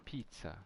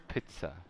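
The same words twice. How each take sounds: First: Said in the usual way. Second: "pizza" the German way, with short i; German pronunciation. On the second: Shown as a demonstration. Streamer shows viewers the German word, "pizza" with short i. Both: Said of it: "in German pronunciation-wise".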